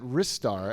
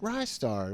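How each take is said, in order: First: The first syllable sounds like 'wrist'. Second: The first syllable sounds like 'rise'. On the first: The speaker calls it wrong. "they kept pronouncing it Ristar" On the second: The speaker calls it right. "Rystar, right? Yeah, Rising Star"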